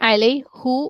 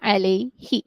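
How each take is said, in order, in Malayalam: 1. ഈ വാക്ക് 'oo' സ്വരാക്ഷരത്തിലാണ് അവസാനിക്കുന്നത്. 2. ഈ വാക്ക് 'ee' സ്വരാക്ഷരത്തിലാണ് അവസാനിക്കുന്നത്. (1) "ഇവിടെ അലൈ ഹു ഒരിക്കലും ഉണ്ടാവില്ല"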